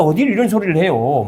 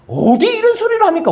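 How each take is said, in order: First: Said in the usual way. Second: "합니까" flung out much higher in disbelief; incredulous exclaim. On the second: Acted. Preacher scolds the congregation for boastful oaths, high incredulous outcry. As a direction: throw the question up high, scandalised.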